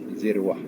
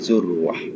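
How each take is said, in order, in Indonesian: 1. Vokal pertama adalah bunyi i. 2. Vokal pertama adalah bunyi u. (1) "boleh dibaca dengan kasrah huruf zal" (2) "Atau dibaca domah"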